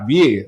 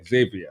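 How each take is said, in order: First: The name is said with a French pronunciation. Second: The name is said with an American pronunciation. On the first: "if we say in the Caribbean, if it's a French word, it's" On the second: "Americans say"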